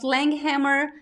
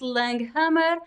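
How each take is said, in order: First: The name is said with an American English pronunciation. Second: The name is said with a Brazilian Portuguese pronunciation. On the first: This is how it is said in the US. "In the U S, I pronounce" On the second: This is how it is said in Brazil. "In Brazil, I pronounce"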